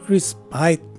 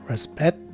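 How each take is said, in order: First: The last syllable has a long I vowel. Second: The last syllable has a reduced schwa vowel. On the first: "it takes a long I sound in the second variation" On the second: "the letter I is a schwa sound in the first variation"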